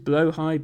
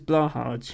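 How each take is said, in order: First: It is said like blow-hide, the Swedish way. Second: It is said like blah-hahj, rhyming with Taj. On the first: "what I think is the correct Swedish pronunciation" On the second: "that joke only works if you pronounce it as Blahaj"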